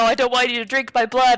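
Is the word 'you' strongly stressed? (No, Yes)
No. The word 'you' carries no special stress. The speaker objects to being drunk from at all. The speaker calls it wrong. "This isn't like a"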